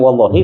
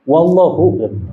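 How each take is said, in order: First: The word ends with an i vowel. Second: The word ends with a u vowel. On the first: This form counts as a real oath. "Asalnya wallahi" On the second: This form does not count as an oath. "menjadi wallahu"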